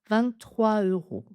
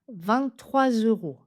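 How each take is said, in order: First: Trois flows into euros without a Z sound. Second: A Z sound links trois to euros. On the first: This is a common informal form. "parfois, vous entendrez juste un enchaînement" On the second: This is the officially correct form. "Officiellement, il faut la faire"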